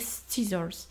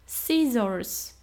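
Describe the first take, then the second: First: A k sound follows the first s. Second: No k sound follows the first s. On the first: The speaker calls it wrong. "a nie scissors" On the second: The speaker calls it right. "A nożyczki to przecież są scissors"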